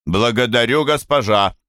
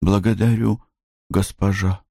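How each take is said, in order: First: Commanding prompt. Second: Meek submissive echo. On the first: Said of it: "Говори". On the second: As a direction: repeat it meekly like a servant. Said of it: "Блум". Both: Acted.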